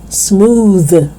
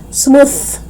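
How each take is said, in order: First: Slow "smooth" with buzzing TH; voiced TH. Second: "smooth" ending in airy unbuzzed TH; voiceless TH. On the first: Teacher correcting learners, "smooth" with voiced TH. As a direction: hum through the end of "smooth". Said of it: "that is voiced". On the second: Teacher showing learners the mistake, "smooth" with voiceless TH. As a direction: only air on the end of "smooth". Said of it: "it's not smooth". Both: Shown as a demonstration.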